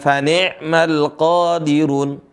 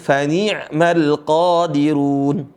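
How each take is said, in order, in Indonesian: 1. Vokal setelah n terdengar seperti 'e'. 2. Vokal setelah n terdengar seperti 'i'.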